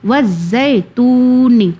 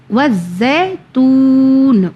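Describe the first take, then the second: First: وزیتونی slow, with a final ی after نون; continuing form. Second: وزیتون said slowly, ending closed on نون; pausal form. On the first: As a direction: keep going: add نی to وزیتونی. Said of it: "اگر نہیں کریں". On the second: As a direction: stretch out وزیتون and stop on the نون. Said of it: "اگر stop کریں تو". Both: Shown as a demonstration.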